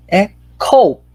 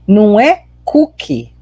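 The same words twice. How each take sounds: First: Coke with a short clipped o and no vowel after the k; right Coke. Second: Cookie said as the Brazilian cookie with a long oo; wrong cookie. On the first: Teacher models the right way to say Coke. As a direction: say Coke with no vowel added at the end. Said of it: "é Diet Coke". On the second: Teacher warns students off saying cookie for Coke. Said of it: "Cuidado, porque não é cookie". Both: Shown as a demonstration.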